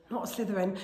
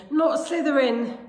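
First: Quiet plea. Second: High, slow, insistent pleading; urgent plea. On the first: Harry gripping the stool and thinking, quiet plea. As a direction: plead it softly to yourself. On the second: Harry begging the hat in thought, urgent plea. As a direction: push the plea higher and stretch it. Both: A narrator's reading.

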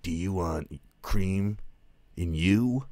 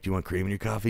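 First: Slow, smug one-liner delivery, higher; mock action hero pun, slowed right down; cheesy catchphrase. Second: Said in the usual way. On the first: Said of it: "everything he says is a catchphrase". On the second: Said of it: "someone will be like".

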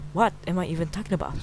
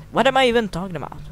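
First: Said in the usual way. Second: Higher, fast, louder self-mocking outburst; squeaky self-mockery. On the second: Gamer laughing at his own rambling, high and fast. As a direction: blurt it high and quick at yourself.

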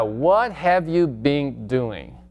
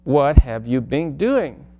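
First: Very slow, word by word; slow first take; slow demo. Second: Said in the usual way. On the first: Shown as a demonstration. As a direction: model it slowly for students. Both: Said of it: "seguimos con la pregunta".

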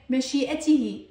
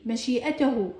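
First: مشيئته said mashi'atihi, ending tihi; voweled h ending. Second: مشيئته said mashi'atahu, ending tahu; voweled h ending. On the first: Teacher showing the constant h, مشيئته ending in tihi. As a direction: end مشيئته on ti-hi. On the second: Teacher showing the constant h, مشيئته ending in tahu. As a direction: end مشيئته on ta-hu. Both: Shown as a demonstration. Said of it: "هنا لفظتها هاء".

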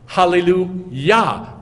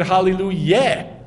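First: "Hallelujah" slow and loud, ending on an open "yah". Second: "hallelujah" ending in "yeh" instead of "yah"; wrong Yeh ending. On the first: Teacher showing Yah at the end of the word, drawn-out "Hallelujah". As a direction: draw out "Hallelujah" with a clear ah at the end. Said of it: "like Yah at the end". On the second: Teacher asking why it isn't so, "hallelujah" said as hallelu-YEH. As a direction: swap the last vowel of "hallelujah" for a short eh. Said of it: "Why isn't it hallelujah?". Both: Shown as a demonstration.

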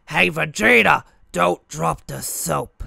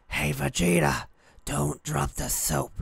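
First: Loud, higher, rough put-on cartoon brute; Nappa. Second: Weaker, held-back raspy attempt; Nappa. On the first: Kid joking around at recess as the character, loud impression. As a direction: bellow it in character, drawing out the last words. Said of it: "I did Nappa". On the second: Shown as a demonstration. Showing his early attempt at the impression, held-back rasp. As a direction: do a half-formed brute voice, barely getting it, drawn out at the end. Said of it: "more like I was whispering it".

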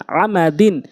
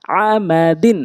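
First: Syllables joined into one word; quick reading. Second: Syllables spaced out for learners; slow demo. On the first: Teacher showing learners the proper reading, quickly. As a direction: read it briskly, vowels short. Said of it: "দ্রুতটা উচ্চারণ করতে হবে". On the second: Teacher introducing the word to learners, slowly. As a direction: take the word slowly, part by part. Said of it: "প্রথমে আমি slow বলছি". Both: Shown as a demonstration.

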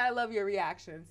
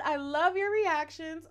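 First: Said in the usual way. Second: Loud, high and drawn-out, gushing; gushing fan quote. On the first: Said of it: "you said". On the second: Acted. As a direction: read the fan's praise out big and slow.

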